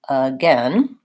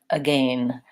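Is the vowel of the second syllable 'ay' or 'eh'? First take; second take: eh; ay. First: The second syllable has an 'eh' vowel. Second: The second syllable has an 'ay' vowel. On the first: "in American English, this vowel is not the A vowel... it's the vowel eh. So I say it like this" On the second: "if I were British, I would say gain and again"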